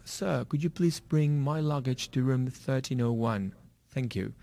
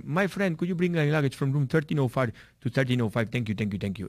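First: Slow, careful put-on British accent. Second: Imitating an Indian English accent, friendly request; a Sikh guest asks the porter in Indian-accented English. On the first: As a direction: ask politely in a mock British accent. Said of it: "hablo con mi idioma british". (pedido lento con acento británico) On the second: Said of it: "Ellos hablan el inglés con acento hindi". (imitando el acento indio al pedir las maletas)

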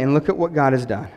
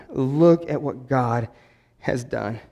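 First: Said in the usual way. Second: "Look at what God has done" dragged out slowly, each word pressed, fading soft on "done"; savoring each word of "Look at what God has done" in wonder; slow emphatic repeat. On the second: Shown as a demonstration. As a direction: lean in and slow right down on the repeat.

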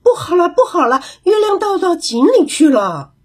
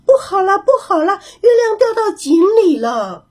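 First: Higher, calling out in alarm; a big monkey raising the alarm; 大猴子大声惊呼; loud alarmed shout. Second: 小猴子惊慌地大叫; frightened cry. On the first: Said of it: "也大声地喊起来". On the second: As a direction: shriek it out as if the moon just fell. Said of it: "小猴子吓得大叫起来". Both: A narrator's reading.

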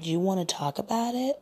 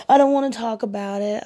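First: Said in the usual way. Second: High, loud whiny imitation; mock crying moan. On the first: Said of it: "And I was like". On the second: Woman mimicking her date refusing to talk, mock tearful whine. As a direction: wail it like a sulky man faking tears. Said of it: "he was crying and he was moaning".

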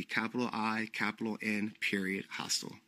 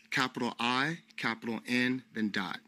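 First: Quietly spelling the name, falling; dictating, softer. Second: Spelling it out letter by letter, rising; dictating. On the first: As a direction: dictate it calmly to close. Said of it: "that's the name that of my hostel would be". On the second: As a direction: dictate each capital clearly. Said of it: "the N hostel works". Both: Shown as a demonstration.

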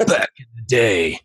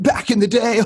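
First: Lightly voiced Jocko, level and firm; a hint of Jocko's gravity; Jocko impression. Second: High, silly mock drunk buddy; drunk college buddy. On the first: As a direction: say it straight like Jocko. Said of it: "when Jocko says it". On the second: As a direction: squeak it out like a goofy college buddy. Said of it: "your drunk buddy from college says it".

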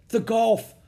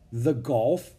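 First: Gasped high, loud cry; alarmed cry. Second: Said in the usual way. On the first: A narrator's reading. Rose realizes where the raft is heading, crying out. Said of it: "she cried". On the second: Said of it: "said Jack".

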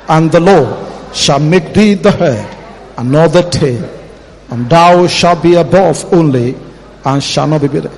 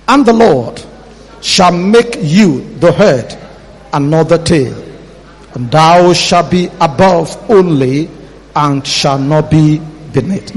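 First: Said in the usual way. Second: Slow measured Bible reading; scripture reading. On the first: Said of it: "Let's read it one more time". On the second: Shown as a demonstration. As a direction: read the verse slowly. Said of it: "let's read verse thirteen".

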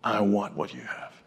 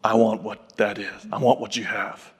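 First: Low, slow and softer, gravely earnest; a hint of a solemn giant asking quietly; serious big man. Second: Low, slow, earnest voice of a very serious big man; lightly voiced, grave request from a towering stranger. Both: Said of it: "he had a very serious look".

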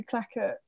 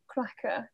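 First: "cracker" slipped into "clacker"; tongue-twister slip. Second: Said in the usual way. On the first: Real, not acted. Naming the episode, "cracker" tripped into "clacker". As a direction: say "cracker" with an L in place of the R.

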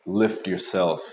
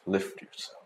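First: Said in the usual way. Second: Breathy whisper to himself; whispered self pep talk. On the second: Shown as a demonstration. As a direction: murmur it like a secret mantra.

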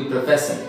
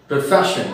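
First: "profession" with s instead of sh. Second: Said in the usual way. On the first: Shown as a demonstration. Teacher mimics Odisha speakers, "profession" with s for sh. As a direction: say "profession" as pro-fess-un. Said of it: "they say s". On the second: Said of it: "Instead of sh, they say s".

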